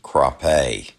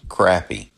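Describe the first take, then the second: First: It is said in the original French way. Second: It is said in the Southern way. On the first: "the original French pronunciation" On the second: "in most of the South, we say crappie"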